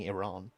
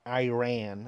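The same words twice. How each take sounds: First: Iran said ih-RAHN, long open second vowel; ih-RAHN pronunciation. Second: Iran said the American way, eye-RAN; American pronunciation. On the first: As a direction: say Iran with a short first vowel and an ah. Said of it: "Sounds like I'm saying Iran". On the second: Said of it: "as the Americans call it". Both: Shown as a demonstration.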